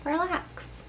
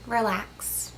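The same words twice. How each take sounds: First: Higher, softer, lilting up on "Relax."; rising relax. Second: Softer, falling tune on "Relax.". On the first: Coaxing the viewer again, "Relax." rising high and soft. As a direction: lift "Relax." gently upward. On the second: Soothing the tired viewer, "Relax." softly falling. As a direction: let "Relax." sink down soft. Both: Acted.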